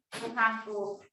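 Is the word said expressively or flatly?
flatly. It is said flatly, with no expression.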